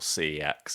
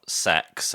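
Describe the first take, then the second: First: It is said as two separate letters. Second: It is said as a single word. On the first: This is the way the speakers prefer. "as we prefer to pronounce it" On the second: This is the usual way people say it. "as it's pronounced"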